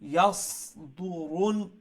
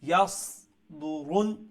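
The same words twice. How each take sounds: The two takes are said the same way.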